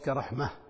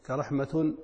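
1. تنتهي الكلمة بصوت الهاء. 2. تنتهي الكلمة بصوت التاء. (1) "وتكون هاء في الوقف" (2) "تكون تاء في الوصل"

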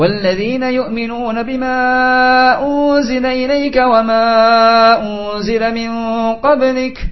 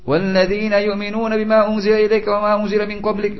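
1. Cepat, tapi vokal panjang tetap panjang. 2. Terburu-buru, dan vokal panjang dipendekkan. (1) "Mempercepat yang tidak panjang, tapi yang panjang tetap dipanjangkan. Bukan ngawur" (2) "Ngawur, cepat selesai"

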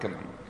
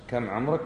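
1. تُقال بنبرة ازدراء وتحقير. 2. تُقال بنبرة استفهام عادية ومحايدة. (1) "الثانيه احتقار" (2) "الاولى مجرد سؤال بعرف عمرك كم"

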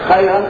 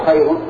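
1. تنتهي الكلمة بصوت 'an' المنصوب. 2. لا تنتهي الكلمة بصوت 'an'.

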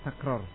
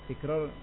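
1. Vokal pertama adalah bunyi 'a'. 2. Vokal pertama adalah bunyi 'i'. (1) "Yang betul takror" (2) "Tikror itu enggak betul, keliru"

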